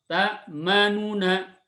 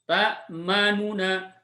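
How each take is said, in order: Both takes have the same delivery.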